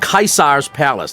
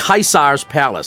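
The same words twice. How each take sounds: First: Caesar is given a Latin-style pronunciation. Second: The same.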